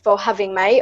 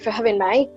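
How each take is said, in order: First: It is spoken in a British English accent. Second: It is spoken in an Australian English accent. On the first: "starting with the British accent" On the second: "And Australian"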